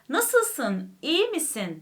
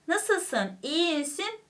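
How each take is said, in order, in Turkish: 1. Dudaklar ve çene gevşek bir şekilde söylenir. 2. Dudaklar ve çene gergin, abartılı bir şekilde söylenir.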